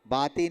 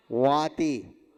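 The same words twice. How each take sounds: First: बाति opening on a hard b; mistaken b sound. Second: वाति opening on v, falling at the end; correct v sound. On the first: Teacher showing the word that was not given, mistaken b sound. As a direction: say बाति with b in place of v. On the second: Teacher giving the word after rejecting baati, correct v sound. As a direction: say वाति firmly with v, not b. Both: Shown as a demonstration. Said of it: "बाति नहीं दिया".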